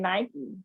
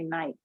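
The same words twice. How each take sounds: First: The name is said the American way. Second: The name is said the South African way. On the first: This is how the brand says its own name. "We say Nike" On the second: This follows the usual English spelling rules. "So in South Africa, they say Nike"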